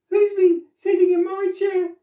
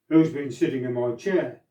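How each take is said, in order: First: It is said in a teeny wee voice. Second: It is said in a great big voice.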